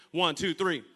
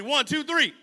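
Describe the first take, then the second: First: Counting in. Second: Rally the crowd with a shouted count; shouted count to cue the crowd's response. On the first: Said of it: "Okay, on three". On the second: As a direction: count it in loud and high. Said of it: "say it like you mean it". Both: Real, not acted.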